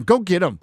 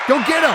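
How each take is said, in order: First: Said in the usual way. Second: Higher, louder rallying cry; hyped up. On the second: Acted. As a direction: egg the chat on like a pack leader.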